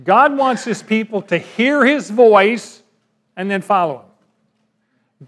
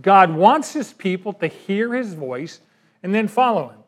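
First: Slow, louder first take stressing God; emphatic principle. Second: Second pass leaning on wants; restated principle. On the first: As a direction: hammer home the principle slowly. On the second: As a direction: repeat with stress moved to wants. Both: Shown as a demonstration. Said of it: "Here's the principle".

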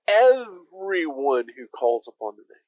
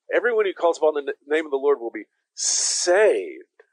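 First: "Everyone" leaned on, the phrase a bit slower; stress on everyone. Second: Usual reading, weight landing on "saved"; stress on saved. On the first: Pastor voicing Paul, stress on everyone. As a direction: put the weight on "Everyone", not on the ending. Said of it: "the emphasis is on the everyone". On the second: Pastor showing how the church usually reads it, stress on saved. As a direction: lean into "saved" at the end, slowing down. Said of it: "We put the emphasis on the saved". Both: Shown as a demonstration.

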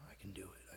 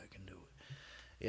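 First: Whispered self-encouragement. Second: Slow breathy whisper to self. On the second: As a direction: whisper it slowly, psyching up. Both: Real, not acted.

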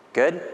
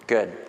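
First: Good? with a high rising question tune; asking. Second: Good. settled with a low falling tune; answering. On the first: Preacher asks the congregation if they agree, rising question. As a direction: toss Good? up to the room as a question. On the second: Preacher confirms the congregation agrees, falling answer. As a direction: close Good. down flat and final. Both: Shown as a demonstration.

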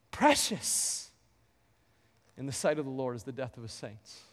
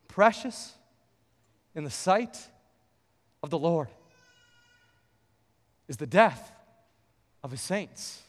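First: Much softer, lower, hushed repetition; tender, quiet echo of the verse; soft repeat. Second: Long pauses between phrases, fading at the end; solemn reading of "Precious" on a verse; slow scripture reading. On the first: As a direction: say it again gently, almost to yourself. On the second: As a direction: let each phrase land, slowly. Recites verse slowly, broken phrases. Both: Acted.

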